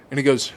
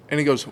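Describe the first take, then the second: No difference in how they are said.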